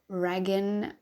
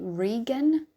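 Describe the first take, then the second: First: The first vowel differs from the vowel in 'regal'. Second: The first vowel sounds like the vowel in 'regal'. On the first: The speaker calls it wrong. "I think I'm mispronouncing his name" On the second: The speaker calls it right. "I think it's actually Regan. ... Regan as in, I guess, regal"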